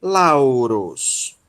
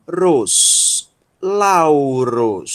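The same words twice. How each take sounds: First: Lauros said again, calm and falling; repeat of the word. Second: Ros, then Lauros, each drawn out; syllable demo. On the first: (repetição de Lauros) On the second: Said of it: "Rho, ômicron, sigma". (pronúncia modelo de Lauros) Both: Shown as a demonstration.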